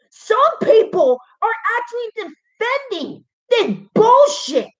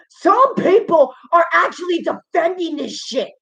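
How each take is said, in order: First: Higher, voice cracking on bullshit; upset repeat. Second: Said in the usual way. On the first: Real, not acted. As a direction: repeat it near tears in disbelief.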